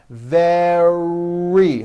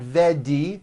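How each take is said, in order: First: The middle consonant is a strong R. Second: The middle consonant sounds like a D. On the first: The speaker calls it right. "Make sure that the R sound is strong and your lips are coming forward" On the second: The speaker calls it wrong. "It's not a D sound. The word is not vedi"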